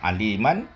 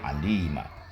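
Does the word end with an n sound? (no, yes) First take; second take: yes; no. First: The word ends with an audible n sound. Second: The word ends without any n sound. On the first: The reciter continues without stopping. "baris fathah" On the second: The reciter stops on this word. "ketika dia diwakafkan alima, tidak ada bunyi nun"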